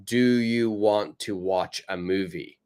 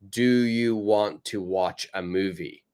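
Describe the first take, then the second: First: Want and to are said fully and separately. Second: Want and to are said fully and separately.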